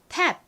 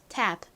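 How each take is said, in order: First: It is said quickly with no audible final p. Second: It is said slowly with a slight final p. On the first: "빠르게 읽으면 탭 이렇게 들리고요" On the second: "천천히 들으면 끝에 프 발음이 살짝 들려요"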